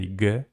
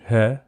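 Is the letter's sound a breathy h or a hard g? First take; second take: hard g; breathy h. First: The letter is said with a hard g sound. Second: The letter is said with a breathy h sound. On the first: This is the Russian pronunciation. "Russians say G" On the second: This is the Ukrainian pronunciation. "it's pronounced H in uh, Ukrainian"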